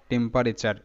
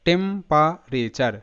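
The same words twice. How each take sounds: First: Said in the usual way. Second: টেম্পারেচার stretched slowly, part by part; slow teaching read of টেম্পারেচার; slow syllable-by-syllable. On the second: Shown as a demonstration. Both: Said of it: "টিইএম টেম".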